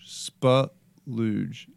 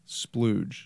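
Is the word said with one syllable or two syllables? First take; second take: two; one. First: The word is said as two syllables. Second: The word is said as one syllable.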